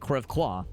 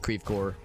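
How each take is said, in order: First: The name is pronounced with French sounds. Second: The name is pronounced with Midwestern American sounds. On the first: "don't you mean Creve Coeur?" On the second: "it is indeed pronounced Creve Coeur"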